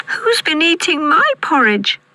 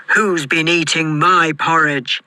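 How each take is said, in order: First: Put-on very high baby bear squeak; tiny squeaky voice. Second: Gruff Father Bear growl; great gruff voice. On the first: Baby Bear finding his porridge touched, tiny squeak. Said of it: "squeaked Baby Bear in his tiny voice". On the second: Father Bear finding his porridge touched, gruff growl. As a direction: growl it out as a big storybook bear. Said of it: "in his great gruff voice". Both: A narrator's reading.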